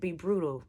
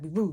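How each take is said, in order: First: It is said clearly at normal speed. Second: It is said very fast and slurred.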